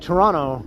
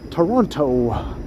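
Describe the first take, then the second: First: The name is said lazily with sounds slurred together. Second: The name is said clearly with every sound enunciated. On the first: This is how long-time residents say it. "in a much more lazy sort of way" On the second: This is how out-of-towners say it. "enunciate it so clearly like that"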